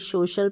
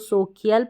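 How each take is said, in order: First: The middle sound is a plain sh. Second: The middle sound is a k followed by ee. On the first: The speaker calls it right. "सोशल पढ़ेंगे" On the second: The speaker calls it wrong. "ना तो सोकियल पढ़ेंगे"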